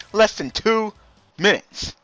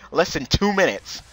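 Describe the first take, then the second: First: "two" pitched high, then a pause before "minutes"; higher repeat, broken just before "minutes"; drawn-out emphatic repeat. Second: Said in the usual way. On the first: Real, not acted. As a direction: hang on "two", then drop "minutes" separately.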